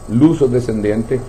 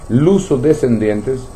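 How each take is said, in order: Both takes have the same delivery.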